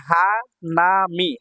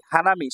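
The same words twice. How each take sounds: First: hanami slow, each syllable held. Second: Said in the usual way. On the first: Shown as a demonstration. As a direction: draw out hanami in three beats. Teacher sounds out new word.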